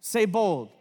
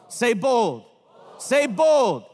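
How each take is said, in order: First: Said in the usual way. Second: Called out. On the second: Real, not acted. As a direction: lead the chant, say bold.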